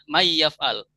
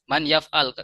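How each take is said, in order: First: The n merges into the following y sound. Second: The n is pronounced clearly before the y. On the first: The speaker calls it right. "Harus dibaca may yaf'al, idhom" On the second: The speaker calls it wrong. "Nggak bisa kita baca man yaf'al"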